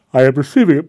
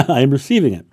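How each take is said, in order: First: Said through a loud yawn, voice pulled high; words stretched by a sudden yawn. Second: Quick, loud, laughing through it; a real chuckle breaking into the line. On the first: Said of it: "Oh, pardon me for the yawn". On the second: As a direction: laugh off the yawn and say it again. Laughs off her own yawn. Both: Real, not acted.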